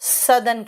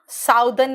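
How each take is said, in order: First: The first vowel sounds like 'uh'. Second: The first vowel sounds like 'ow'. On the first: The speaker calls it right. "सदर्न कहते हैं" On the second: The speaker calls it wrong. "साउदर्न नहीं बोलते हैं उसको"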